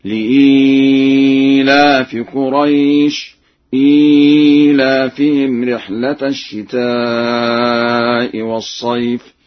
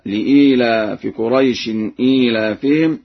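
First: Slow chant, held ii in إيلافهم; lengthened badal. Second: Said in the usual way. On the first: Shown as a demonstration. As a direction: draw out the ii of لإيلاف and إيلافهم. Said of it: "بتوسط البدل هكذا". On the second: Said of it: "قرأ ورش بتوسط البدل".

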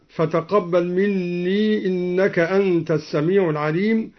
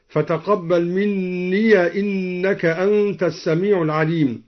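First: Said in the usual way. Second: مني ending in an open ya, minniya, joined to the next word. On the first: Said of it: "قوله تعالى". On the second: Shown as a demonstration. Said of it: "فتح الياء وصلا هكذا".

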